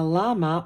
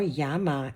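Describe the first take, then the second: First: Said in the usual way. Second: "llama" with a Spanish y sound at the start; Spanish pronunciation. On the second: Shown as a demonstration. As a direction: pronounce "llama" as "yama". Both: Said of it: "as they say".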